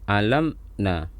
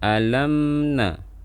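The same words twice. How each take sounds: First: The m sound is held far too long. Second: The m sound is held only slightly. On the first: The speaker calls it wrong. "jangan alamna atau ditahan secara berlebihan" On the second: The speaker calls it right. "Jadi suaranya ditahan sedikit"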